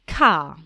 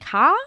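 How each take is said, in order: First: The pitch starts high and falls. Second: The pitch rises at the end of the word. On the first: It is a statement. The speaker calls it right. "I'll deliberately make my tone go down" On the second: It sounds like a question. The speaker calls it wrong. "instead of saying"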